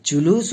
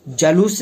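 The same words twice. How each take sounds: First: जुलूस as "ju-loos"; जुलूस with "ju" first; corrected U form. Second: जलूस as "ja-loos"; जलूस with "ja" first; wrong A form. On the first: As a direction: put a U after J in जुलूस. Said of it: "जुलूस होता है". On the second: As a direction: put a short A after J in जलूस. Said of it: "जलूस नहीं होता है". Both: Shown as a demonstration.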